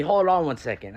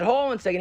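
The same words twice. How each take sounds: First: Said in the usual way. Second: Mock-affronted repeat, pitch jumping up; retold indignant questioning; incredulous echo. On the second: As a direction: echo it back in higher-pitched disbelief. Caller echoes the request, affronted.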